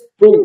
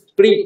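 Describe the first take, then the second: First: The syllable ends with an 'oo' vowel. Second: The syllable ends with an 'ee' vowel. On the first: The speaker calls it right. "স্প্রু বলছি" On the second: The speaker calls it wrong. "স্প্রি এটা না বলে"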